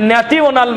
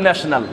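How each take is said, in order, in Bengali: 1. মাঝেরটি 't' ধ্বনি দিয়ে বলা হয়। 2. মাঝেরটি 'sh' ধ্বনি দিয়ে বলা হয়। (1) "ছোটবেলায় আমরা বুঝতাম" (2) "এখানে একটা এস নাই, এইচ নাই, তারপরেও আমাকে ন্যাশনাল বলতে হচ্ছে"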